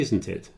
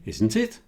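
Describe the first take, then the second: First: The tag stays flat in pitch at the end. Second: The tag rises in pitch at the end. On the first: The speaker expects agreement and needs no information. The speaker calls it right. "In that sort of flat tone at the end" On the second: The speaker is really asking for information. The speaker calls it wrong. "So I wouldn't say"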